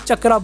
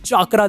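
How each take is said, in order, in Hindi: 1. यह मूल उच्चारण में बोला जाता है। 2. यह अंग्रेज़ीकृत उच्चारण में बोला जाता है। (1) "उसको एक्चुअली चक्रा बोला जाता है" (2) "इंग्लिश डब में अगर तुम सुनो नारुतो शिपडेन को तो वो चाकरा चाकरा बोलते हैं"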